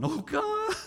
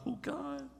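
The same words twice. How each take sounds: First: Much higher mock wail of despair; ugly praying wail. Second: High, soft mock moan; a pitiful little plea to God, half-mocking; ugly praying. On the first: Preacher mimics needy believers crying out, hammed-up high wail. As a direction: wail it like a hammed-up desperate prayer. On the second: Preacher mimics needy believers praying, high soft mock moan. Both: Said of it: "we do that ugly praying".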